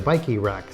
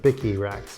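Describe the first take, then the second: First: The first vowel sounds like 'bike'. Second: The first vowel sounds like 'bick'.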